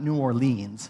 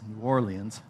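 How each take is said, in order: First: Orleans is said in the rejected way. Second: Orleans is said in the accepted way. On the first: The speaker calls it wrong. "Not New Orleans" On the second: The speaker calls it right. "I better say that right"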